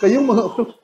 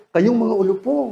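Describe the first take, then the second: First: Tearful rebuke. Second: Gentle rebuke. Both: Retold or imitated. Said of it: "Ganun lang".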